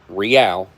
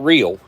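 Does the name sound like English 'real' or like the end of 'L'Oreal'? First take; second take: L'Oreal; English real. First: It sounds like the end of L'Oreal. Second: It sounds like the English word real. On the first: The speaker calls it right. "like uh, L'Oreal, the makeup. That's how this is pronounced" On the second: The speaker calls it wrong. "not real"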